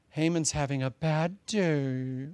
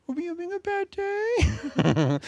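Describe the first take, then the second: First: Said in the usual way. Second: Much higher, slow, babyish mock-sympathy voice; mock pity. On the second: Preacher teasing the congregation in a high mock-pity voice. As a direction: coo it like asking a sulking child.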